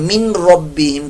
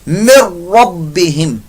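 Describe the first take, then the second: First: The n is clearly pronounced before the r. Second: The n merges into the following r sound. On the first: The speaker calls it wrong. "नून की आवाज को निकालते हैं, मिन रब्बिहिम करके पढ़ते हैं, ये गलत है" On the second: The speaker calls it right. "नून जो है ये साइलेंट हो जाएगा, यानी कि ये असल में मुदगिम हो रहा है रा के अंदर"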